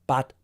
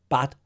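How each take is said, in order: No difference in how they are said.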